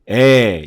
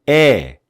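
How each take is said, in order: First: The vowel sounds dark and low-pitched. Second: The vowel sounds bright and high-pitched. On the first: This is the vowel of the English letter A. "A자는 조금 어둡게 에 이렇게 하고" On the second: This is the vowel of the English letter E. "E자는 좀 밝게 에 이런 식으로"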